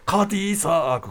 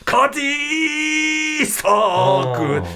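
First: The word is said at a quicker tempo. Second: The word is drawn out and said slowly. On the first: This is how it actually sounds. "ちょっとテンポが速い" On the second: This is how it was remembered. "なんか伸ばし気味だったんだけど"

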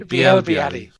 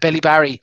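First: The name is said with French-style sounds. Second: The name is said with English-style sounds. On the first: The speaker calls it right. "Yes. Thank you very much" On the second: The speaker calls it wrong. "Even I know I'm pronouncing that wrong"

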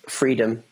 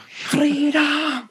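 First: It is said in a plain, ordinary voice. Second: It is shouted like the Braveheart battle cry.

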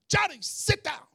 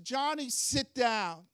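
First: It is said in a sharp, stern tone. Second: It is said in a calm, mild tone.

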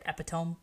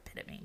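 First: It is said as it looks in spelling. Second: It is said with its standard pronunciation. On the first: The speaker calls it wrong. "I always read it epitome" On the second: The speaker calls it right. "Now I know it's the word epitome"

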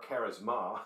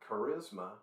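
First: It is said with a Greek pronunciation. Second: It is said with an English pronunciation.

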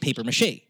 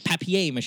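First: It is said in an American accent. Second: It is said in a British accent.

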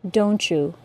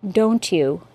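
First: The t and y blend into ch. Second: Both words are said separately, with no blending. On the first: "with the assimilated CH sound and J sound" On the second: "articulate perfectly, with no assimilation"

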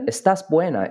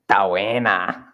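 First: The first syllable of estás is pronounced. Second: The first syllable of estás is dropped. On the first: This is the standard Spanish form. "instead of estás buena" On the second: This is the Chilean way of saying it. "it's ta buena. Like that"

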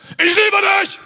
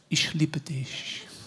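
First: It is shouted loudly. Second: It is whispered softly.

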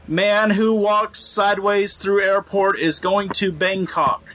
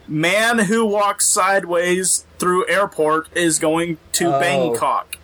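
First: The sentence is spoken at a quicker pace. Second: The sentence is spoken at a slower pace. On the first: The pun goes unnoticed. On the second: The pun becomes clear.

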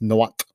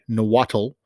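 First: The word is pronounced closer to the native way. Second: The word is pronounced in an anglicized way. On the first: The speaker calls it right. "which I can't even say that properly, but I'm saying it better" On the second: The speaker calls it wrong. "as a lot of anglicized people will say"

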